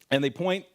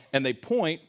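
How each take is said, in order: Both takes have the same delivery.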